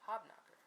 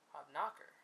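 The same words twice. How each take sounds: First: The stress falls where most versions put it. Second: The stress falls on a different syllable.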